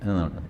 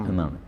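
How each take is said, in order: Both takes have the same delivery.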